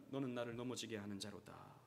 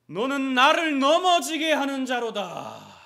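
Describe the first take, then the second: First: Low, softer, grave rebuke; quiet rebuke. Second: Much higher, louder, slow thundering rebuke; Jesus rebuking Peter. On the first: Jesus rebuking Peter, a low grave rebuke. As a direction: say it low and heavy. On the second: Jesus rebuking Peter, slow thundering rebuke. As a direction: thunder each word at him. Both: Acted. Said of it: "예수님께서 베드로를 꾸짖으신 거죠".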